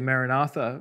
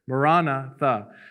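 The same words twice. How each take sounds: First: The stress is not on the second syllable. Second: The stress is on the second syllable.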